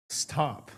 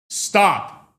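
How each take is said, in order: First: A soft, almost muttered Stop. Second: Firm loud stop, higher; a loud, commanding Stop; sharp stop. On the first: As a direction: let Stop drop quietly away. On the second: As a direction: snap out the word Stop as a command. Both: Shown as a demonstration. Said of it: "I could say the same thing and it can mean two different things".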